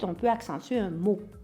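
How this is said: The stress is on the word mot.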